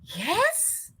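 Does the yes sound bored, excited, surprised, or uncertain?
surprised. It sounds surprised.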